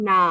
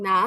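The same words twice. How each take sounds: First: "না" in the questioning third tone, dipping; tone for "which". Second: "না" short with a falling fourth tone. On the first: Teacher contrasts "which" with "that", dipping-tone demo. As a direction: dip the pitch on "না" as the question word. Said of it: "আর which কি?". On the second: Teacher contrasts "that" with "which", falling-tone demo. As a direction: drop the pitch briskly on "না". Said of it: "দুটোর উচ্চারণ কিন্তু আলাদা". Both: Shown as a demonstration.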